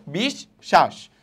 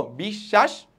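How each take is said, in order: First: বিশ্বাস very slow, as bish... shash; slow syllable-by-syllable বিশ্বাস, falling at the end; doubled consonant, split. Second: বিশ্বাস joined, as bishshash with long sh; বিশ্বাস in one piece, lifting at the end; doubled consonant. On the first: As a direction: break বিশ্বাস between its two sh sounds. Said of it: "এই দেখো". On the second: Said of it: "দুইবার উচ্চারণ হলো". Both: Shown as a demonstration.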